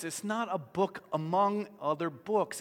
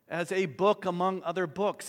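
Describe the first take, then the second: First: "not" punched with a rising tune in "It's not a book among other books"; stress on NOT. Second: "book" pressed firmly in "as a book among other books"; stress on book. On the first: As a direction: hit "not" hard and lift the end. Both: Shown as a demonstration.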